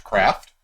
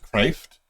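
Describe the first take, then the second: First: Said in the usual way. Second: Craft with a long A, like "crayft"; alternate vowel. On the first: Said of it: "as you say normal craft". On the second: Shown as a demonstration. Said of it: "I've also heard it pronounced".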